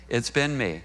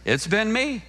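First: Hushed repeat of "It's been me"; quiet echo. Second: High, pointed "It's been me" with stress on "me"; raised admission "It's been me"; emphatic confession. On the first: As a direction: let it sink in, quieter. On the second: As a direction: land on "me" like a confession to the crowd. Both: Shown as a demonstration. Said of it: "who's been often on the receiving end".

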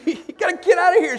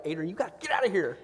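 First: Much higher and louder mock yell. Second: Quick, firm order to his wife; urgent instruction. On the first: Dad replaying his order to his wife, hammed-up high yell. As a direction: throw it out like a playful shout. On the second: Retold or imitated. Dad telling his wife to leave the pool, quick firm order. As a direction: hurry the wife out, briskly. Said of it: "I'm like".

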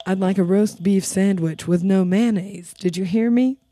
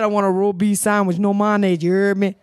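First: Low customer voice, "roast beef sandwich" fully articulated; clearly enunciated order. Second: Low, garbled order in imitated Creole-like accent; thick Creole-like accent. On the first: Retold or imitated. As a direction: spell out "roast beef sandwich" word by word, deliberately. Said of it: "He said". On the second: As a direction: slur the words together in a thick Creole-like accent. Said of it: "Is this some Creole shit".

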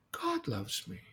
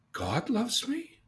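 First: Said in the usual way. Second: God loves me rising much higher, very slow; wondering question. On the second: Acted. Boy wondering if God loves him, slow surprise.

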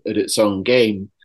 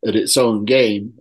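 No difference in how they are said.

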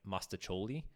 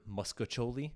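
First: Said in the usual way. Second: Muscacholi, with an added sk-uh sound; altered pronunciation. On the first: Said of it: "instead of". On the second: Shown as a demonstration. Host quoting people they know, muscacholi with added letters. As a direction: muscacholi said as muska-choli. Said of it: "I've heard".

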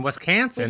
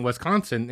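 First: Wisconsin accent with a flattened 'a' in "Wisconsin". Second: Said in the usual way. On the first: Shown as a demonstration. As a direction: say "Wisconsin" with a local "CAN" vowel in the middle, higher. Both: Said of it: "letters that they inflect".

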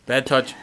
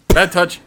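First: Said in the usual way. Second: BAD raised high and loud; louder alarmed repeat. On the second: Real, not acted. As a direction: call it out in alarm. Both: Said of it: "repeated, second louder".

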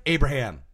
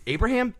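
First: Said in the usual way. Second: Abraham? rising like a question; questioning rise. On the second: Pretend. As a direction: ask Abraham? with a high rising tune. Guessing the Bible name.

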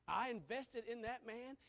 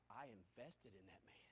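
First: Said in the usual way. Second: Soft and low confiding; quiet personal confession; hushed. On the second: Real, not acted. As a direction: drop to a near hush.

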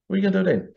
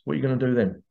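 First: "What are you gonna do then?" pitched higher, pressing on "you"; challenging the viewer, higher and insistent, stress on "you"; insistent repeat. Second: Said in the usual way. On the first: Real, not acted. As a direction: push the repeat up and hard on "you". Rhetorical question repeated harder.

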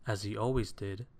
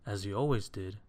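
The two takes are said the same way.

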